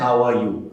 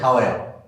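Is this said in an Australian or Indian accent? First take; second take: Indian; Australian. First: Every word is said fully, in an Indian accent. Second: Words are clipped and swallowed, in an Australian accent. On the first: This is how it was taught at school. "जैसे हम पूछते हैं" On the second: This is how locals in Australia say it. "बोलते हैं हाउ आर। ... आधे शब्द खा गए"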